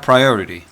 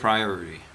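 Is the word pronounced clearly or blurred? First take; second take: clearly; blurred. First: Each syllable is pronounced clearly and fully. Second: The syllables are blurred and reduced together. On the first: "읽어볼까요?" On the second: "원어민들은 priority. 좀 아주 애매하게 발음해요"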